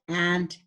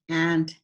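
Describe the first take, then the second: First: The vowel is the short 'a' of cat. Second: The vowel is the short 'a' of cat.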